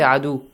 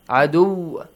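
First: The w sound is short and single. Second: The w sound is doubled and held longer. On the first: The speaker calls it wrong. "we don't say adu" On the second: The speaker calls it right. "because we have tashdeed, two waw we have"

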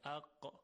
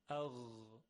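First: It ends in a sharp stop made deep in the throat. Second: It ends in a voiced, rubbing throat sound. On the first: The speaker calls it wrong. "باید دقت کنیم که مثل قاف نشه" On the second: The speaker calls it right. "به بهترین وجه میشه اون رو تلفظ کرد"

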